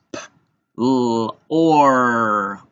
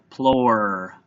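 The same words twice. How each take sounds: First: P, l, or separately, with a loud held or; tapped-out sounds. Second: Said in the usual way. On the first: Shown as a demonstration. Teacher tapping out plore, segmented. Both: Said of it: "gonna tap out plore".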